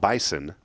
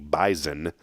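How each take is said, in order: First: The middle consonant is an s sound. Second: The middle consonant is a z sound. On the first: The speaker calls it wrong. "not Bison" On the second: The speaker calls it right. "up there they say Z"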